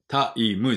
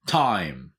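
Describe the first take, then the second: First: "タイム" in three beats, ta-i-mu; "タイム" Japanese-style, each vowel separate; wrong katakana pronunciation. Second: "タイム" as one gliding syllable closing on m; "タイム" falling, no vowel after the m; correct English "time". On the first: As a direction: say "タイム" with a full "mu" at the end. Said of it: "じゃないです". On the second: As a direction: say "タイム" as "tai" then just close the lips. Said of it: "んって口閉じるだけ". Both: Shown as a demonstration.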